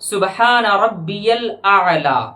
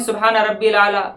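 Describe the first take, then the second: First: Rabbi links to al with a y glide. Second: Rabbi runs into al as one short rabbil. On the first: The speaker calls it right. "सही ही क्या है तो सुने" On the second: The speaker calls it wrong. "बाज़ लोग ये पढ़ते हैं ... जो कि गलत है"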